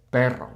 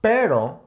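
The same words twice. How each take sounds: First: "Perro" with a trilled double R; rolled R. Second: "pero" with one quick tongue tap; tap, don't roll, the R in "pero"; single tapped R. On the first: Contrasting two words for learners, trilled "Perro". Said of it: "Not pero". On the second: Contrasting for learners, single-tap R in "pero". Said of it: "singular R". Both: Shown as a demonstration.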